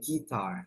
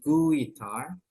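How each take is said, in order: First: No 'w' sound is heard after the g. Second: A 'w' sound is heard after the g. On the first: The speaker calls it right. "tapi langsung aja guitar" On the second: The speaker calls it wrong. "U-nya nggak usah dibaca ya, bukan guitar"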